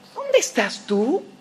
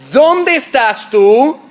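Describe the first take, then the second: First: It sounds helpless and genuinely wondering. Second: It sounds angry and threatening.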